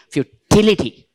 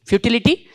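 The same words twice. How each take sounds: First: "futility" with a loud, punched TIL; stress on third-last syllable. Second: Said in the usual way. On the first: Shown as a demonstration. Teacher showing where the stress should be, "futility" stressed on TIL. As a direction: say "futility" as fu-TIL-ity, falling after TIL. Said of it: "third syllable from the last". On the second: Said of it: "where the stress should be".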